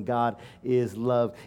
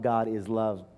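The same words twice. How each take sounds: First: God is love, drawn out slowly; a slow weighty God is love; slow emphatic. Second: Said in the usual way. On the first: Acted. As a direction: lay each word down slowly.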